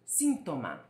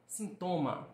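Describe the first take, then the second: First: Síntoma with the first syllable SIN punched; SIN-to-ma, weight up front; Spanish stress on SIN. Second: Sintoma with the middle TO stressed; sin-TO-ma, weight on the second syllable. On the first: Teacher contrasting two languages, Síntoma stressed on SIN. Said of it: "No espanhol". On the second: Teacher contrasting two languages, Sintoma stressed on TO. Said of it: "No português". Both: Shown as a demonstration.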